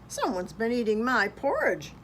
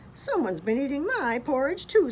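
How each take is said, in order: First: It is a growling, great big voice. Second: It is a middle-sized, medium voice.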